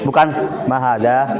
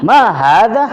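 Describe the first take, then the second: First: Ma hada said flat with no questioning rise; wrong take: Ma hada with no question tune; flat, not a question. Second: Ma hada asked loudly with a big rising question tune; right take: animated questioning Ma hada with a rise. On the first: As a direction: read Ma hada as a plain statement, falling. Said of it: "Itu bukan nanya itu". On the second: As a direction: punch ma and lift the end of Ma hada like a real question. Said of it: "Tapi pakai gaya". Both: Shown as a demonstration.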